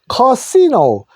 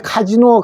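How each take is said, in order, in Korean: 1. 가운데 자음은 s 소리예요. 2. 가운데 자음은 z 소리예요. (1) "영어로는 요 커시노라 합니다" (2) "우리나라에서는 처음에 이걸 카시노를 안 하고 카지노라고 읽기 시작했습니다"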